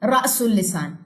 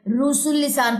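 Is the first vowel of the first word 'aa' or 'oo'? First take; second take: aa; oo. First: The first vowel is a long open 'aa'. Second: The first vowel is a long rounded 'oo'. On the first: The speaker calls it right. "सही pronunciation" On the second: The speaker calls it wrong. "ये ना हो कि आप इसको"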